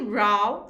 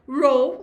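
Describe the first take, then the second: First: The vowel rhymes with 'cow'. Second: The vowel rhymes with 'throw'. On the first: It means a fight or argument. "E row significa briga" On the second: It means a line of things or people. "Row significa fila"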